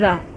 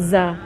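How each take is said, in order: First: The consonant is a soft th, tongue between teeth. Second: The consonant is a buzzing z, tongue behind teeth. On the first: The speaker calls it right. "You must insist in seeing their tongue coming up" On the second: The speaker calls it wrong. "it's not za"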